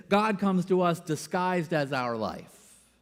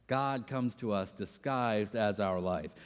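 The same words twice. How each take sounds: First: Said in the usual way. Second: Soft reflective repeat. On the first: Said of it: "quotes a line that goes like this". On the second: Shown as a demonstration. Preacher repeating Rohr's line, soft and reflective. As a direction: say it again quietly as if to yourself.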